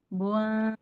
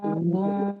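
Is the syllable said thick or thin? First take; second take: thin; thick. First: The syllable sounds thin, lips spread in a smile. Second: The syllable sounds thick, lips not spread. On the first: The speaker calls it right. "ditarik langsung senyum" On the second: The speaker calls it wrong. "bibirnya nggak senyum, jadi tebal"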